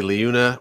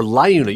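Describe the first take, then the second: First: Liuna said as LEE-oo-na; first pronunciation. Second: Liuna said as LIE-oo-na; alternative pronunciation. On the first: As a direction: open Liuna with a "lee" sound. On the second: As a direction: open Liuna with a "lie" sound. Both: Shown as a demonstration. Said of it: "You said Liuna, right?".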